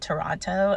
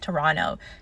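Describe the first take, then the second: First: The final T sound is clearly pronounced. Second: The final T sound is dropped. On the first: The speaker calls it wrong. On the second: The speaker calls it right.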